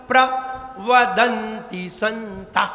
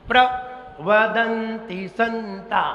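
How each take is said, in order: No difference in how they are said.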